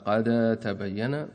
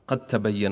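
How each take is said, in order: First: The dal is pronounced separately before the ta. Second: The dal merges fully into the following ta. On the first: The speaker calls it wrong. "لو أحد قال قد تبين هذا مخطئ" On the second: The speaker calls it right. "لابد من الإضغام"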